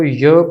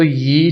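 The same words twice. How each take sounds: First: य as "yuh", with a schwa vowel; correct reading. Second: यी with a long ee vowel; wrong reading. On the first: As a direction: read य with an uh sound, not ee. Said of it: "इसको य पढ़ेंगे". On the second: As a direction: read यी as "yee", the mistaken way. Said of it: "हम इसको यी नहीं पढ़ सकते". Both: Shown as a demonstration.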